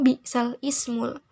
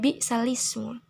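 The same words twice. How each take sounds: First: A glottal stop is pronounced before ismu. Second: The glottal stop is dropped, vowel moved to lam. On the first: The speaker calls it wrong. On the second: The speaker calls it right. "karena dinakalkan menjadi"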